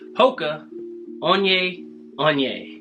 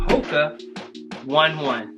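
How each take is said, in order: First: 'One One' sounds like 'oh-nay oh-nay'. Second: 'One One' sounds like the English number one. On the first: The speaker calls it right. "It's actually Hoka Onye Onye" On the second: The speaker calls it wrong. "Nuh-uh, that's not how you say it"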